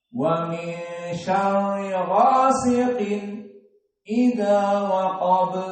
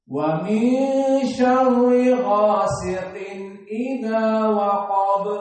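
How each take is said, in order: First: A brief silent stop comes before idza. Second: The n is clear and flows straight into idza. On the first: "saktah ... Maka tidak dibaca dengan cepat" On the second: "Si tanwin nun itu jelas, tidak ikhfa, tidak idgham, tapi jelas ... dibaca dengan cepat"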